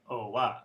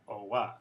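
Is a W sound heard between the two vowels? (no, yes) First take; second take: yes; yes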